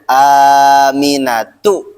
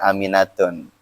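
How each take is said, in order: First: The name ends in a plain vowel, no n. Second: The name ends with an added n sound. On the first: The speaker calls it right. "Sampingnya Aminatu" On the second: The speaker calls it wrong. "bukan Aminatun"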